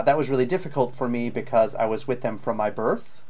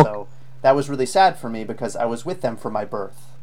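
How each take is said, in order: First: Imitating a student ending on a rise; rising at the end. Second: Final "birth" drops down, then a short pause; a clear downward sentence ending; falling at the end. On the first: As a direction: let "birth" lift up at the end. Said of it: "See how it goes up at the end". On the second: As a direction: bring the voice down on "birth". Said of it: "Drop it down there". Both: Shown as a demonstration.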